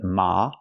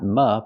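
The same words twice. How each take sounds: First: The vowel is an open ah sound. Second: The vowel is a more closed sound. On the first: The speaker calls it right. "but ma. Use the open sound ah" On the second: The speaker calls it wrong. "not ma"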